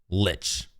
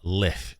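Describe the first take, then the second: First: The word ends with a ch sound. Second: The word ends with a k sound.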